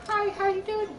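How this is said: It is said in a smooth voice.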